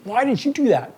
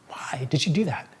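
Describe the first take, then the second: First: It sounds accusing and punishing. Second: It sounds genuinely curious and open.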